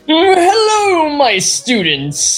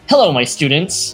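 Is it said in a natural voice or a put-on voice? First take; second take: put-on voice; natural voice. First: It is said in a put-on Monopoly man voice. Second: It is said in a natural voice.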